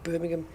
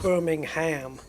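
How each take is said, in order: First: The stress is on the first syllable. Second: The stress is on the last syllable. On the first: This is the British way of saying it. "That's how it would get pronounced" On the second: This is the American way of saying it. "the American version of that would they would accentuate the the ham at the end"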